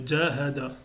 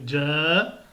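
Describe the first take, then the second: First: Jahada lu vite, voyelles trop courtes; wrong reading. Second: Jahada avec le ja bien allongé; right reading. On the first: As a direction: jahada sans allonger le ja. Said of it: "c'est faux". (prononciation fautive, jahada trop rapide) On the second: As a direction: tiens longtemps le a de Jahada. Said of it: "il faut bien allonger". (Jahada, premier a allongé) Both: Shown as a demonstration.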